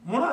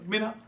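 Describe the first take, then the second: First: The first vowel is a short 'oo' sound. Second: The first vowel is a long 'ee' sound. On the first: The speaker calls it right. "असल तो मुना है" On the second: The speaker calls it wrong. "गलत उलाम है मीना"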